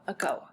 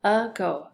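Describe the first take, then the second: First: Said in the usual way. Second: "Ago" as a clear "uh", then "go"; split by syllable. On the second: Shown as a demonstration. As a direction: break "Ago" into two syllables. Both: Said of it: "So the first syllable".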